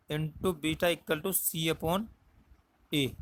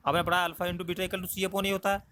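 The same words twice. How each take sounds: First: "into beta equal to C upon" spelled out very slowly, word by word; slow it down so students can write it; slow dictation. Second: Said in the usual way. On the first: Shown as a demonstration. Teacher dictating formula to students, very slow. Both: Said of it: "क्या होता है, C upon A".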